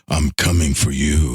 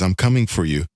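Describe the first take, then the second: First: It is said in a menacing, threatening way. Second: It is said in a friendly, welcoming way. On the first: The bus is out to get you. "Like, I got to get the hell out of here" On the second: The bus is simply arriving to pick you up. "It's like, oh, great, the bus is here"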